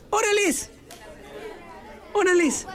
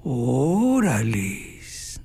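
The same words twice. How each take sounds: First: "Órales" jumping much higher, a quick eager agreement; eager yes. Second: "Órales" stretched out very slowly and much lower, an appreciative drawl; admiring órales. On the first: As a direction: snap out a high, keen "Órales" to accept the invitation. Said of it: "o tal vez te dicen, "Oye, ¿quieres ir conmigo al cine?". ("Órales" agudo y entusiasta, aceptando) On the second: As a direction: draw out "Órales" low and slow, like at a pretty girl passing. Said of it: "va pasando una muchacha bien guapa y dicen". ("Órales" alargado, lento y grave, con admiración)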